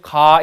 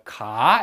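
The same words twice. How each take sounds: First: The syllable stays on a high pitch. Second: The pitch starts low, rises, and is longer. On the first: "높게" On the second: "낮았다가 높아져야 되기 때문에 ... 더 오래 걸려요"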